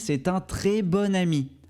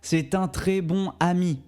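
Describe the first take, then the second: First: Bon sounds like bonne, linked to ami. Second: Bon is said separately, with no linking sound. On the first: The speaker calls it right. "On dit ... on prononcera bon comme bonne" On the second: The speaker calls it wrong. "on ne dit pas ... Ce n'est pas très fluide"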